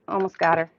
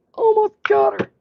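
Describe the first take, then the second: First: Said in the usual way. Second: High, eager cheer of effort; rising thrill, nearly there; excited. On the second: Real, not acted. Scrubbing off stubborn grit.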